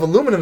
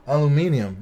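First: "aluminum" in four syllables, stressed on the second; American pronunciation. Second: "Aluminium" with five syllables, al-yu-MIN-ee-um; British pronunciation. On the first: Man correcting friends on the word, American pronunciation. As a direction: say "aluminum" the American way, a-LOO-mi-num. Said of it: "is not even the right word". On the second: Man offering friends the supposedly right word, British pronunciation. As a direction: stress the third syllable of "Aluminium", ending ee-um. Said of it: "that's if you're British". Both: Shown as a demonstration.

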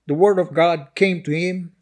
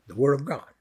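First: Said in the usual way. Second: "the word of God" repeated low and deliberate; quiet emphatic repeat. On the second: Real, not acted. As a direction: drop "the word of God" to a soft, grave emphasis. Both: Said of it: "I'd like to emphasize that".

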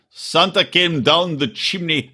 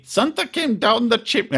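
First: Slow, careful attempt at a Russian accent; badly faked Russian, drawn out; practiced Russian accent. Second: High-pitched second stab at Russian; badly faked Russian accent, pitched up; practiced Russian accent. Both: Shown as a demonstration. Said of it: "I'll practice it".

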